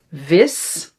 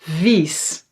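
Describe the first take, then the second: First: "Vis" with a short i, as in "bit"; "Vis" said with a quick "ih"; short vowel. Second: "vies" with a long "ee" sound; "vies" held on its ie; long vowel. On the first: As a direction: keep the i in "Vis" brief. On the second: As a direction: draw out "vies" like "veess". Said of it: "the long E". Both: Shown as a demonstration.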